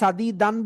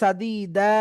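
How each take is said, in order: First: The word ends with a final n sound. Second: The word ends on an open a vowel. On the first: The speaker calls it wrong. "সাদি দান বলে থামবো" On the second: The speaker calls it right. "সাদিদা বলে থামতে হবে"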